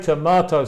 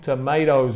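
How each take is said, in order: First: Tomatoes is said in a non-American accent. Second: Tomatoes is said in an American accent. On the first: "I say tomatoes" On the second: "I think tomatoes in American English"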